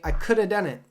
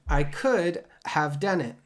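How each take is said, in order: First: One word is dropped and the rest link together. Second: Every word is said fully and separately. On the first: The speaker calls it right. "We completely take out one of the words, and then we connect the remaining words" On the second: The speaker calls it wrong. "We don't say that"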